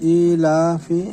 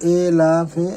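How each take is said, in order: First: The vowel is a clear, pure 'ee' sound. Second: The vowel is a lowered 'e' sound. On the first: The speaker calls it right. "মারুফ" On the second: The speaker calls it wrong. "মাজহুল যা অশুদ্ধ"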